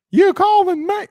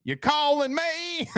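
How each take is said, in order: First: Put-on a high, loud call of a kid answering; imitated kid's call. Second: Put-on slow, higher kid twang broken by a laugh; kid's twang. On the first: Kid at the door answers dad, loud high call. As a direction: call back like a kid at the door, much higher and louder. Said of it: "their little twang to him". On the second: Dad mimics his kid's twang, slow and laughing. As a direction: drawl it out like a little kid, laughing. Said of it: "kids get their little twang".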